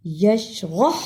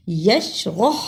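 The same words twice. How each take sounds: First: یشرح ending on a soft breathy ہ. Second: یشرح ending on a rough ح rubbed from the throat; throaty ha. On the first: Teacher shows the wrong reading, soft h. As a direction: let the final ح in یشرح fade out as a light h. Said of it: "پہلے ہا کو ہم نے نرمی سے پڑھ دیا". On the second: Teacher shows the correct reading, rough throat h. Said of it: "دوسرے ہا کو ہم نے صحیح حلق سے نکالا". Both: Shown as a demonstration.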